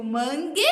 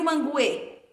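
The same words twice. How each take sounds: First: Said in the usual way. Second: Manguê said as "man-GU-E", u sounded; wrong pronunciation. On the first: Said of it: "Eu digo mangue". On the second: Shown as a demonstration. Teacher asking which she says, mispronounced manguê with sounded u. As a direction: sound the u in manguê, ending in "gwê". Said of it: "ou eu digo manguê?".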